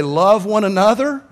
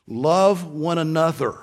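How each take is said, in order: First: Louder and higher insistent plea; urging counselor. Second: Said in the usual way. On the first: Retold or imitated. Counselor urging husband and wife, insistent loud plea. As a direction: press it on the quarrelling couple. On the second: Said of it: "Even if you say to Christians".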